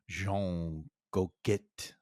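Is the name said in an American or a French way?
French. The name is said with French pronunciation. This is the name's original form. "his name is probably"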